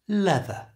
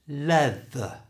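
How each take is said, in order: First: It is said at normal conversational speed. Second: It is said slowly with a strong th. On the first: "And now at normal speed" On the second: "First slowly"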